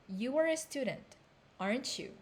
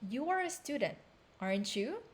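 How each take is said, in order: No difference in how they are said.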